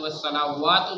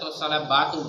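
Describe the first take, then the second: First: The consonant after 'sala' is a w sound. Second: The consonant after 'sala' is a b sound. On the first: The speaker calls it right. "জাগাত" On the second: The speaker calls it wrong. "না গেছে"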